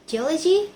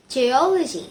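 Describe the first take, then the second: First: Said in the usual way. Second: "geology" with a loud O, ge-O-logy; stress before the suffix. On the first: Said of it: "Number three". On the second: Shown as a demonstration. Student shows suffix attracting stress, O stressed in "geology". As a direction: punch the second syllable of "geology", then fall. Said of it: "attracts stress to the syllable before".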